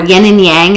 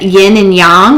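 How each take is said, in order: First: It is said with a plain English pronunciation. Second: It is said with a more Chinese-like pronunciation.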